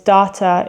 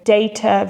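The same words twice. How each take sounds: First: It is said with an American English pronunciation. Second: It is said with a British English pronunciation.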